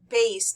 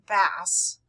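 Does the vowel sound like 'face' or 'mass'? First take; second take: face; mass. First: The vowel sounds like the one in 'face'. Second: The vowel sounds like the one in 'mass'. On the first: The speaker calls it right. "pronounced bass" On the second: The speaker calls it wrong. "not bass"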